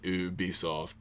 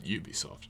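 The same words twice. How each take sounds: First: The first syllable sounds like 'oo' in Boo. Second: The first syllable sounds like the word 'you'. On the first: The speaker calls it wrong. "Not like the reincarnation of Boo from Dragon Ball Z" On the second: The speaker calls it right. "emphasis on you, like Yu-Gi-Oh"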